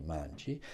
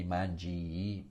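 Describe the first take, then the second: First: MANGI ending on one short i, softer and lower; single final I. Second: MANGI with a long, doubled final i; drawn-out double I. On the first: Teacher gives learners the right form, one short i. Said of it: "only one I". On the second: Teacher warns against wrong spelling sound, long final i. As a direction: stretch the end of "mangi" into two i sounds. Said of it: "so you don't say mangi". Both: Shown as a demonstration.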